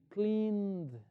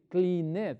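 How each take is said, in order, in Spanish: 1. La terminación es una sola consonante, sin sílaba extra. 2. La terminación se dice como una sílaba extra. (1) "voy a decir cleaned" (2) "no voy a decir cleaned"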